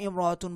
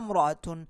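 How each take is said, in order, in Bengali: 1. শব্দটি একটি স্পষ্ট স্বরধ্বনি দিয়ে শুরু হয়। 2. শুরুর স্বরধ্বনিটি বাদ যায়, আগের শব্দের সাথে মিলে যায়। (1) "প্রথমে আমি ইমরাতুন বলছি" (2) "এই আলিফটার উচ্চারণ করছি না"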